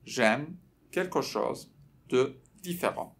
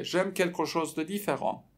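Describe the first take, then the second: First: Word by word, pauses between chunks; slow model phrase. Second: Said in the usual way. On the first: Shown as a demonstration. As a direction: break it up slowly for learners to repeat. Teacher slows phrase for repetition. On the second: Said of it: "رپته".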